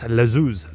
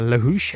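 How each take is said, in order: First: The middle consonant is a Z sound. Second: The middle consonant is an H sound. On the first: The speaker calls it right. "the H is like a Z, Lazuz, uh, is how the locals pronounce it" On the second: The speaker calls it wrong. "So I've been pronouncing uh, Lahouche, Luge, uh, wrong"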